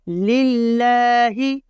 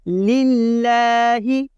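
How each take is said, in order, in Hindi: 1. l की आवाज़ हल्की और बारीक बोली जाती है। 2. l की आवाज़ हल्की और बारीक बोली जाती है।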